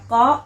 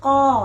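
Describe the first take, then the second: First: The vowel is pronounced short. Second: The vowel is pronounced long. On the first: This follows the grammar rule. "ตามหลักไวยากรณ์นะคะจะออกเสียงสั้นนะคะ" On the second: This is the common everyday usage. "แต่ทั่วไปนะคะก็จะนิยมออกเสียงยาวนะคะ"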